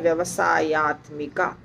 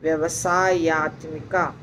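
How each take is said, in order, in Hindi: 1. यह एक जुड़े हुए शब्द के रूप में बोला जाता है। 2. यह एक जुड़े हुए शब्द के रूप में बोला जाता है।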